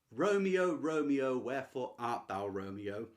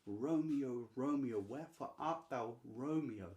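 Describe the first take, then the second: First: Loud first call, falling away without grace; recited without grace, starting loud; unanimated reading. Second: Understated longing, gently falling; yearning. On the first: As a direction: read it out with no animation. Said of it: "I've read that with, like, no grace and no animation at all". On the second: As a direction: linger on the name with longing. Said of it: "when you're yearning after someone". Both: Shown as a demonstration.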